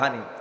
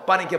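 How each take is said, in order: First: The word begins with an h sound. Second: The word begins with a p sound. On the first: "পানিকে বলে হানি" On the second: "Noakhali প হয় না"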